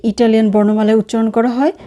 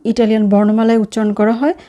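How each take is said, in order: Both takes have the same delivery.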